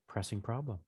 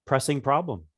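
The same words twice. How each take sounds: First: Hushed musing. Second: Said in the usual way. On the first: Acted. Mouse mulling over the player's answer, hushed musing. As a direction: repeat it musingly, barely audible. Mouse repeats it under its breath.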